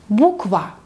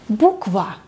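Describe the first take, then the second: Both takes have the same delivery.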